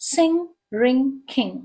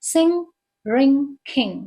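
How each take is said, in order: The two takes are said the same way.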